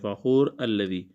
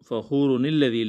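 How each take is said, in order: First: The first word ends, then 'alladhi' starts separately. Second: The words run together with a linking 'ni' sound. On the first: The reciter stops after the first word. "अगर रुकेंगे" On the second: The reciter continues without stopping. "मिलाते वक़्त"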